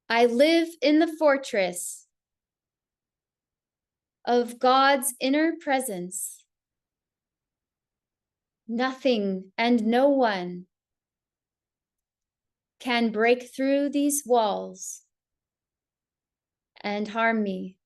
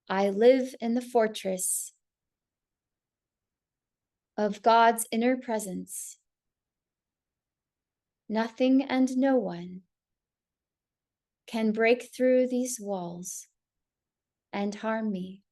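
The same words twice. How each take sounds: First: It is spoken aloud at full volume. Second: It is spoken aloud but more softly.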